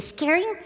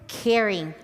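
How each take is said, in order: First: The word is said quickly and blurred. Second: The word is said slowly and carefully.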